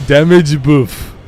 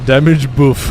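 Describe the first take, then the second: First: "Damage buff" stretched slowly in a put-on French accent; drawn-out French-accented "Damage buff"; slow French chef voice. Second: Put-on "Damage buff" in a light French accent; a hint of French chef saying "Damage buff"; lightly accented French "Damage buff". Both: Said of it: "sounds like a French chef".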